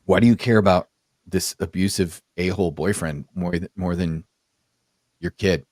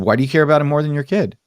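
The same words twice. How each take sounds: First: Retold question, low and unhurried; measured pointed question. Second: Retold question, quick and higher; fast, pressing repeat at a higher pitch; insistent repeated question. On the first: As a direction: ask it deliberately, with pauses, voice dropping. First asking of pointed question. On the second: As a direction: fire the question back, raised pitch. Repeats question after her "What?.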